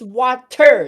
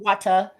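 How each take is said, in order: First: The word ends with a clear R sound. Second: The word ends in an open vowel, no R. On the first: The speaker calls it right. "There's an R at the end" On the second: The speaker calls it wrong. "Y'all saying it like W A T A"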